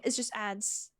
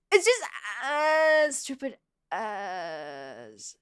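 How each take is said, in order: First: Said in the usual way. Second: Very slow, stretched-out ADS, sinking lower; long groaned complaint, trailing down; drawn-out grumble. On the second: Real, not acted. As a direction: drag out each ADS as a long whiny groan.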